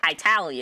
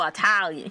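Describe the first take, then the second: First: "Italian" said as "eye-TAL-yun"; mock American "Italian", starting like "eye"; mispronounced Italian. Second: Said in the usual way. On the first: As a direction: open "Italian" with a long "eye" sound. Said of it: "He said, "Italian".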